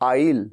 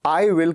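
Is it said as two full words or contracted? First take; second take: contracted; full. First: It is squeezed into one short contracted syllable. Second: It is said as two full separate words. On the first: "मैं इसको contract कर देता हूं" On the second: "I will की जगह पे"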